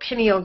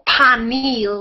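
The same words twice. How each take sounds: First: The word is said in a standard accent. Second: The word is said in a Southern accent.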